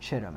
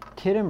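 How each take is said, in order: First: The word begins with a ch sound. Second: The word begins with a hard k sound. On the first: "so it may actually be pronounced Chittim" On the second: "usually the CH in the Bible is pronounced with a K"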